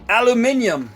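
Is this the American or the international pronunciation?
international. It is said the way most other countries say it.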